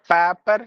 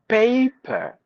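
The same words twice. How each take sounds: First: The first vowel is a short single e sound. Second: The first vowel glides as a two-part diphthong. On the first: The speaker calls it wrong. "We say paper sometimes" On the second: The speaker calls it right. "but it should be a, paper"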